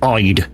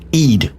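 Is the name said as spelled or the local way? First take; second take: as spelled; local way. First: The name is pronounced the way it is spelled. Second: The name is pronounced the local way. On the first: This is how an outsider would read it. The speaker calls it wrong. "if you look at it, it's Ide" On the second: This is how the villagers say it. The speaker calls it right. "We call it Eid"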